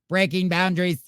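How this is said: It is read in a put-on robotic voice.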